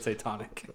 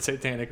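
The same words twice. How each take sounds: First: "satanic" said as say-TONIC; botched "satanic", with tonic at the end; mispronounced satanic. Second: Said in the usual way. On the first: Retold or imitated. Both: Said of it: "he mispronounced the word satanic".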